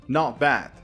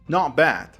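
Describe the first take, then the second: Both takes have the same delivery.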